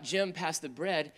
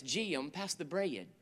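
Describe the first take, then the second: First: Said in the usual way. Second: Southern North Carolina accent, stretching "Jim" and "bread" into two syllables, slow and soft; North Carolina drawl. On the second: Shown as a demonstration. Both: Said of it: "every word has two syllables".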